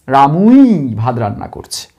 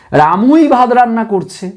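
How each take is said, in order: First: রামুই stressed in a much lower repeat; low repeat stressing রামুই. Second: রামুই said with weight, falling after; stress on রামুই. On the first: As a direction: echo it low, still leaning on রামুই. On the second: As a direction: lean on রামুই. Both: Shown as a demonstration. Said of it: "জোর দিয়ে ব্যক্তিকে বলছি".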